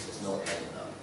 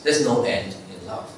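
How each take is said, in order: First: "There's no end in love" repeated much softer, almost breathed; near-whisper echo. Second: Said in the usual way. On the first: Shown as a demonstration. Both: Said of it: "repeated for emphasis".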